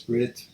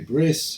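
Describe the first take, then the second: First: It is said with a non-Ashkenazi pronunciation. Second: It is said with an Ashkenazi pronunciation.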